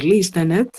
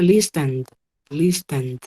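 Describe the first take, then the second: First: Listened with a full extra syllable at the end, listen-ED; wrong pronunciation. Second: Listened in two syllables, closing on a D sound; correct pronunciation. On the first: Teacher showing students what not to say, listened mispronounced with -ed sounded. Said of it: "yo no podría decir listened". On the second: Teacher modelling the past tense, listened pronounced with silent E and final D. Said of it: "Con ese sonido de la D al final". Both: Shown as a demonstration.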